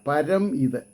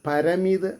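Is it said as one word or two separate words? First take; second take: two words; one word. First: It is split into two separate words. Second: It is run together as a single word. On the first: The speaker calls it right. "ഏറ്റവും ഉയർന്ന അവസ്ഥയിലെന്നർത്ഥം" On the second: The speaker calls it wrong. "അങ്ങനെയല്ല"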